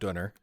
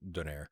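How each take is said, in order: First: It is pronounced the German way, ending in -ner. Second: It is pronounced the French way, ending in -nair. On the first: "as they call it in Germany" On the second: "French speakers who would pronounce it Donair"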